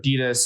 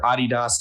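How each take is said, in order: First: The name is said the American way. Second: The name is said the European way. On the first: "It's it's Adidas here in America" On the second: "if you're in Europe"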